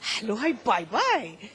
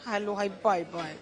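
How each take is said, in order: First: It is said in a happy, cheerful way. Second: It is said in a sad, gloomy way. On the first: "अगर मैं खुश हूं तो" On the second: "अगर दुखी हूं तो"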